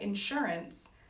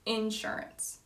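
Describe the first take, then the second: First: The emphasis follows the non-Georgia pattern. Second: The emphasis follows the Georgia regional pattern. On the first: "I wouldn't say insurance" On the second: "in Georgia, I would say insurance"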